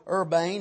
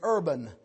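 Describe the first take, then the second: First: The last syllable has a long A sound. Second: The last syllable has a short vowel. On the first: "My Bible says that's a hard A" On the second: "Some people said it's Urban"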